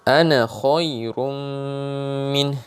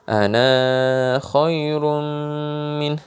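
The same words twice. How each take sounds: First: The final vowel of 'ana' is short. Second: The final vowel of 'ana' is long. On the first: The speaker calls it right. "ketika wasol ya, bacanya akan begini" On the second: The speaker calls it wrong. "Kalau orang mungkin belum tahu tentang tanda ini"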